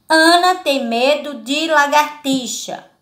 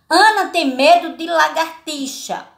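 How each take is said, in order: The two takes are said the same way.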